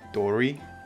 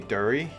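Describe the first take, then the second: First: The name is said with a New York accent. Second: The name is said without a New York accent. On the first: The speaker calls it wrong. "He would always say it like Dory" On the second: The speaker calls it right. "he could never really say Dury"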